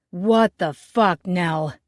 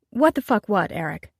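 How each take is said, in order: First: Slow, loud furious challenge; loud angry demand. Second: Cool, amused throw-back of his words; unperturbed mocking echo. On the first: Acted. Angry man bursting in, yelling at the chef, loud and slow. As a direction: storm in and bellow at her. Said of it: "his voice louder than all hell". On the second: Chef calmly mocking the angry co-owner, unbothered. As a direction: smile and toss it back at him. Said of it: "Unperturbed, the petite chef smiled".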